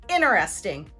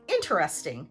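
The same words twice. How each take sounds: First: The T after the N is dropped. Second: The word is said with four syllables. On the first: "remove the T sound because it follows the N sound" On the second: "American English speakers will say interesting, four syllables"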